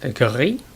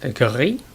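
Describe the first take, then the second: First: It is said with a French-style pronunciation. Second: The same.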